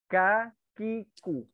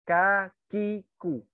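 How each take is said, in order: The two takes are said the same way.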